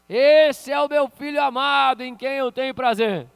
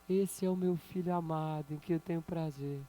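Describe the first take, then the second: First: It is said in a loud, booming voice. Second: It is said in a small, quiet voice. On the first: God's voice is heard like thunder. "muitos acharam que era um trovão" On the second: God speaks gently, like a breeze. "daí vem uma vozinha e diz assim, ó"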